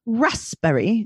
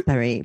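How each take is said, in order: First: "Raspberry" with the P sounded, pitched up questioningly; "Raspberry" said carefully with an audible P; pronounced P. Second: "Raspberry" pitched low, in a mock-fancy way; "Raspberry" as a low, fancy pronunciation. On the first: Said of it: "I always have to pronounce it". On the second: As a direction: drop low on "Raspberry", putting on refinement. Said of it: "that was my fancy voice". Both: Shown as a demonstration.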